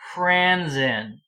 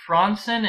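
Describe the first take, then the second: First: Fransen is pronounced with English-style sounds. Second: Fransen is pronounced with Swedish-style sounds. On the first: The speaker calls it right. "You would pronounce it Fransen" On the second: The speaker calls it wrong. "Would you pronounce it Fransen in English"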